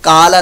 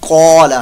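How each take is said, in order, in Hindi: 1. यह सादे, हल्के 'k' से शुरू होता है। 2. यह गहरे, भारी 'q' से शुरू होता है। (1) "सिंपल काला पढ़ दिया तो ये काला नहीं" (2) "कौला है, पुर मोटा करके"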